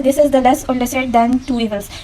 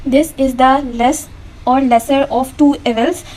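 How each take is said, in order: First: Said in the usual way. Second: Slow, deliberate example sentence; slow example read. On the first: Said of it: "जो पहला sentence है". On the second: Shown as a demonstration. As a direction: read very slowly, word by word. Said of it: "खुद से choose करना है".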